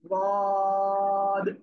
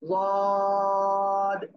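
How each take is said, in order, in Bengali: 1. ব্যঞ্জনটির উচ্চারণ ভারী, মোটা ও তাফখীমযুক্ত। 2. ব্যঞ্জনটির উচ্চারণ ভারী, মোটা ও তাফখীমযুক্ত।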